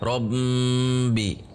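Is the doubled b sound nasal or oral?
nasal. The doubled b has sound through the nose. The speaker calls it wrong. "itu suara ke hidung"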